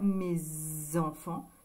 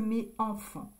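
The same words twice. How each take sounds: First: A z sound links mes to enfants. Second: No z sound links mes to enfants. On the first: The speaker calls it right. "on fait la liaison. C'est plus joli de dire mes enfants" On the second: The speaker calls it wrong. "que mes enfants"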